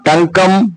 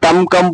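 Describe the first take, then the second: First: The nasal before the k is an ng sound. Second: The nasal before the k is an m sound. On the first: The speaker calls it right. "टंग कम pronounce करने में आसान" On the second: The speaker calls it wrong. "टम कम pronunciation करने में मुश्किल है"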